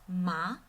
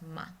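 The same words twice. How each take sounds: First: The pitch rises from middle to high. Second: It is short, soft and light, with no pitch movement. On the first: "goes out from middle pitch to high pitch" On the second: "like a whisper, really quickly and gently"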